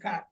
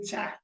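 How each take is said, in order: First: It begins with a k sound. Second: It begins with a ch sound. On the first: The speaker calls it right. "It's not cha, ka" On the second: The speaker calls it wrong. "we'll tend to say cha"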